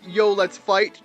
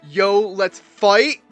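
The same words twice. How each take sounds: First: It is said in a casual, relaxed way. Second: It is said in an intense, serious way.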